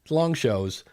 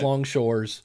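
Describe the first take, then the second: First: The second word has no r sound, like 'shows'. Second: The second word has an r sound, like 'shores'. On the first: The speaker calls it right. "I can never say long shows" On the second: The speaker calls it wrong. "It's always long shores"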